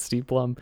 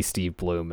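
First: "Steve Blum" with a short "uh" vowel, like "plum"; "Blum" rhymes with "gum", the old way; Blum said wrong. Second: "Steve Bloom" with a long "oo", like "bloom"; "Bloom" rhymes with "room", the corrected way; Bloom said right. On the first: Host says it as "Steve Blum", short vowel like "plum". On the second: Host corrects it to "Steve Bloom", long "oo" as in "room". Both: Shown as a demonstration. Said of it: "we might just be saying his name wrong".

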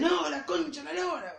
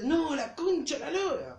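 First: Higher, half-shouted curse mimicking his friend; mock his friend's angry swearing; angry outburst. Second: Angry outburst. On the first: Friend mimics Nico swearing at the Play, mock angry. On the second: Retold or imitated. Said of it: "Pero mucho más fuerte".

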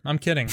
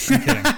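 First: Said in the usual way. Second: Higher and louder, laughing out kidding; laughing through words. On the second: Real, not acted.

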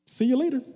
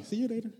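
First: Loud, high brush-off farewell; dismissive goodbye. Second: Softer, still high brush-off; quiet goodbye. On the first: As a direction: send them off with a bold goodbye. (despedida desafiante, fuerte y aguda) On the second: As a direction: let them go with a quiet wave-off. (despedida suave y despectiva) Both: Acted. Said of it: "Hay personas que tú vas a tener que decirle".

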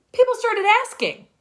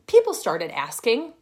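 First: People started asking, pitched much higher and louder; excited echo, much higher; higher, louder repeat. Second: Said in the usual way. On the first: Shown as a demonstration. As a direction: repeat it with a lift of delight.

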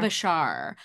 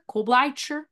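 First: Klobuchar said KLOH-buh-shar, falling; corrected name. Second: Kolbleicher said as kohl-BLY-cher, wrong stress; mispronounced name. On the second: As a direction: Kolbleicher with an ly sound, not Klobuchar. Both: Real, not acted.

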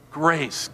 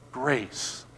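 First: Said in the usual way. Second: Unvoiced whisper Grace. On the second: Shown as a demonstration.

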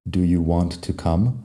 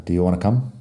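First: "Do you want to come" with every word separate; unnatural full form. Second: "Do you wanna come" run together, "want to" reduced to "wanna"; connected speech. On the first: Teacher showing what nobody really says, "want to" fully separated. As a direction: sound out both words of "want to", t included. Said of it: "realmente nadie dice". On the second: Teacher showing how people really say it, "wanna" joined up. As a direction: join it up quickly as "d'you wanna come". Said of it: "connected speech". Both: Shown as a demonstration.

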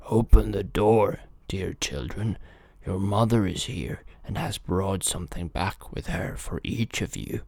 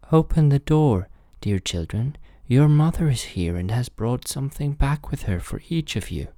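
First: Rough wolf posing as mother; rough-voiced wolf. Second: Wolf's high, sweetened fake mother; softened wolf voice. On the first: Wolf calls to the kids at the door, rough voice. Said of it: "it was the wolf by his rough voice". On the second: Wolf poses as mother after eating chalk, softened high voice. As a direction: pose as mother in a higher, smoothed-out voice. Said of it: "made his voice soft with it". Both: A narrator's reading.

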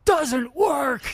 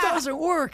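First: Sudden high, loud shout; mock furious scream, much higher and louder. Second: High yell broken by laughter; high laughing mock shout; laughing replay of the yell. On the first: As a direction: bark it right in his face. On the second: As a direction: repeat the shout while cracking up. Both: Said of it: "screams at me like that".

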